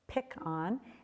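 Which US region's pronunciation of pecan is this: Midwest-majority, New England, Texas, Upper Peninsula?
Texas. It is said the Texas and Louisiana way. "in Texas and Louisiana"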